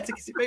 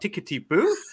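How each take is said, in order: First: It is said in the speaker's own British accent. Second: It is said in a put-on German accent. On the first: The speaker confirms the phrase as a local saying. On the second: Someone unfamiliar with the phrase is questioning it.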